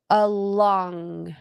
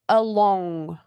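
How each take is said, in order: First: The o is not said like 'oh'. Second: The o is said like 'oh'. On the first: The speaker calls it right. "it's along" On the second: The speaker calls it wrong. "we don't say O, it's not along"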